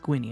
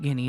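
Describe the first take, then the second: First: The word begins with a gw sound. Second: The word begins with a plain g sound. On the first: The speaker calls it right. "it's Gwinny" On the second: The speaker calls it wrong. "It's not Guinea"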